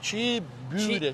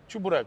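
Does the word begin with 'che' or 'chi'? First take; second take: chi; che. First: The word begins with 'chi' and has 'yu'. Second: The word begins with 'che' and has 'u'. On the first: This is the Crimean Tatar form. "по-татарськи чібюрек" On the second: This is the usual form in Ukraine. "в Україні завжди називали чебурек"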